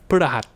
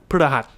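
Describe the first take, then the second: No difference in how they are said.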